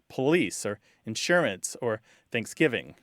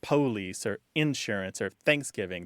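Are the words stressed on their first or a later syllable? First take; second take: later; first. First: Each word is stressed on a later syllable. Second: Each word is stressed on its first syllable. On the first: This is how younger speakers say it. "They're more likely to say" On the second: This is the older Southern pronunciation. "the younger generations don't tend to say things like"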